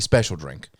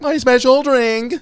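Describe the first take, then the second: First: The voice falls down at the end. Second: The cadence is odd, without a final fall.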